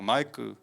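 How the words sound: The name is said imitating another person's pronunciation.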